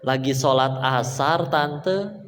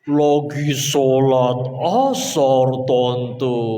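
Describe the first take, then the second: First: It is said at normal speed. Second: It is said very slowly, drawn out.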